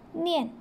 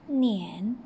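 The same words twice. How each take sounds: First: The pitch falls sharply from high to low. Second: The pitch dips low, then rises.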